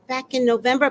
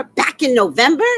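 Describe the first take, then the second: First: Said in the usual way. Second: Loud, incredulous echo; appalled disbelief. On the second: Retold or imitated. HOA woman hears how long it has gone on, loudly appalled. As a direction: throw it back as a scandalized question.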